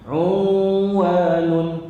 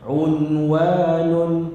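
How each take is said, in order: First: The n is nasalized and blended into the w. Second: The n is pronounced clearly without nasal blending. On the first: The speaker calls it wrong. "salah bacaan" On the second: The speaker calls it right. "izhar, menzahirkan bunyi nun mati tersebut"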